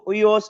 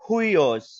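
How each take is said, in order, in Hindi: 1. शब्द सीधे स्वर से शुरू होता है। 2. शब्द की शुरुआत साँस वाली 'h' की आवाज़ से होती है। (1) "इसको उयोस नहीं बोलेंगे" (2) "बल्कि हुईओस"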